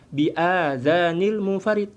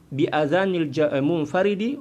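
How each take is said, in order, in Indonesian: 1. Vokal pertama dari adhan itu panjang. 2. Vokal pertama dari adhan itu pendek. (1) "Jangan pula kita baca" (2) "hamzahnya enggak panjang ya"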